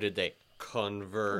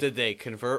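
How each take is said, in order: First: The question is asked in an ironic, sarcastic way. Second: The question is asked in a plain, sincere way. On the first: The conversion was only nominal, not genuine. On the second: It asks whether they really converted.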